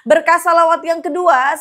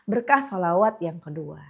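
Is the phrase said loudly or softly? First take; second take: loudly; softly. First: It is said loudly, almost shouting. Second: It is said softly and quietly. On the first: "aku tuh emang ngomongnya teriak-teriak" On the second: "Ya coba pelan-pelan ya"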